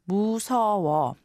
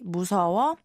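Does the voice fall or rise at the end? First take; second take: fall; rise. First: The voice falls at the end like a statement. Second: The voice rises at the end like a question. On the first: The speaker is saying they are scared. "to say I'm scared, you'd have to say 무서워 casually" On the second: The speaker is asking if someone is scared. "If you change the intonation and say 무서워"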